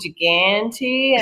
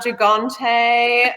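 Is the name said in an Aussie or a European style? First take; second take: Aussie; European. First: The name is said with a broad Australian pronunciation. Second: The name is said with a European-style pronunciation. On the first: "very Aussie" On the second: "a little bit more Euro style"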